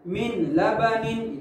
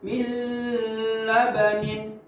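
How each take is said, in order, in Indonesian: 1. Bunyi n dibaca jelas dan terpisah. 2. Bunyi n ditahan dengan dengung sengau. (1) "itu jelas tuh" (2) "Jangan kita dengungkan seperti ini"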